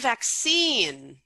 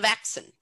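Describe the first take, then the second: First: The stress falls on the usual syllable. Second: The stress falls on an unexpected syllable. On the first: This is the word the learner intended. The speaker calls it right. "he meant the vaccine" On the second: This is how the learner actually said it. The speaker calls it wrong. "not the vaccine"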